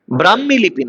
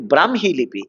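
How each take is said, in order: First: "ব্রাহ্মী" as brammi, doubled m, no h; wrong pronunciation. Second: "ব্রাহ্মী" as bram-hi, h sounded after m; correct pronunciation. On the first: Teacher shows students the error, mispronounced. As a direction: give the faulty "ব্রাহ্মী", brammi, to be rejected. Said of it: "নয়". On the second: Teacher corrects the error for students, correctly pronounced. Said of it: "ব্রাহ্মী লিপি নয়". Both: Shown as a demonstration.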